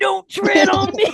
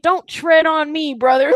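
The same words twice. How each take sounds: First: Much higher, slow hammed-up yell; mock patriot shout. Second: Mock patriot. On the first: Parodying Florida locals at protesters, mock rally shout. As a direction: bellow it like a rally chant. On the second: Parodying Florida locals at protesters, hammed-up drawl. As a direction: ham up a gun-loving Floridian. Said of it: "and, like".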